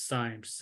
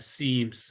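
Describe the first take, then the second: First: The vowel sounds like 'eye', as in times. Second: The vowel sounds like 'ee', as in seams. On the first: This is how other people say it. "other people uh, pronounce it as cymes" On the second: This is how the speaker says it. "I call them uh, seams"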